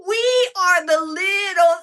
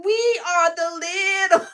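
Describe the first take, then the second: First: High, loud, drawn-out cry of joy; excited shout. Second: Said in the usual way. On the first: Real, not acted. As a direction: yell it out proudly, slowly.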